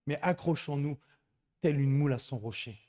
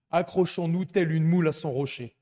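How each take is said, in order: First: Said in the usual way. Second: Loud, rousing proclamation; proclaimed loudly. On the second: Acted. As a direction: call it out to the congregation. Proclaims the motto.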